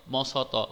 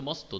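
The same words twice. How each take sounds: First: "ম স ত" as three separate sounds, each with its own vowel; split-up pronunciation. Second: Said in the usual way. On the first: Shown as a demonstration. Teacher showing students how not to say it, "ম স ত" pulled apart. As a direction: break the cluster in "ম স ত" apart, sound by sound. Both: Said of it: "এরকম উচ্চারণ করছো না".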